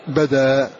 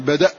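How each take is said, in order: First: It ends in a long vowel. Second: It ends in a glottal stop. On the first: "فإنه يحرك الهمزة الساكنة بحركة ما قبله فقبله فتحة يقول بدأ" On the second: "قف على بدأ يقول بدأ"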